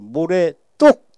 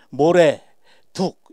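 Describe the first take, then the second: First: The second word starts with a tense tt sound. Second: The second word starts with a plain d sound. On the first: It is treated as one single compound meaning. The speaker calls it right. "모래 뚝 하고 에, 발음을 해줘야 돼요" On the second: Sand and bank are treated as two separate meanings. The speaker calls it wrong. "또 모래 둑 이거 안 됩니다"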